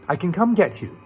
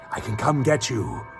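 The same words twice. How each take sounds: First: It is said in a put-on character voice. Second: It is said in a plain narrating voice.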